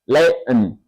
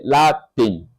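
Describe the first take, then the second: First: The T sound is dropped. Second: The T sound is clearly pronounced. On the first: "but American accent Latin. No T, no T" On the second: "We read it"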